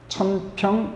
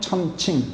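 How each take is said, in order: First: The second syllable is pronounced 'pyeong'. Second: The second syllable is pronounced 'ching'. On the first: "보통 천평이라고들 말하는데 그렇게 발음해도 상관없어요" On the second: "원래는 천칭이라고 읽어야 맞아요"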